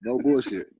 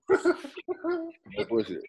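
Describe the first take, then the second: First: Said in the usual way. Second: "No bullshit" drawn out very high and slow; high stretched mock. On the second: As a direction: squeak "No bullshit" long and high, half laughing.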